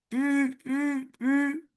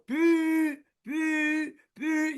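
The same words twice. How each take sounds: First: Each syllable is kept short and clipped. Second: Each syllable is drawn out long. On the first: The speaker calls it right. "le son que je fais... pas plus" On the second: The speaker calls it wrong. "C'est trop long"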